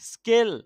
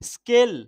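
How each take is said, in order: No difference in how they are said.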